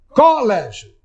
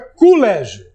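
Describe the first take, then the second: First: It is said in a Pernambuco accent. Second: It is said in a Rio de Janeiro accent. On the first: "um pernambucano, lendo-a em voz alta, diga colégio" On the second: "Que um carioca diga colégio"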